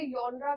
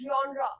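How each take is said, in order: First: The word begins with a 'yon' sound. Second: The word begins with a 'jon' sound. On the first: "कुछ लोग इसे यॉनरा कहते हैं" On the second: "basically this word is जॉनरा"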